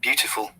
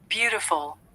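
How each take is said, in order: First: It is said in a British accent. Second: It is said in an American accent, soft T. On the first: "Beautiful in British I P A" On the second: "But the Americans say it a different way"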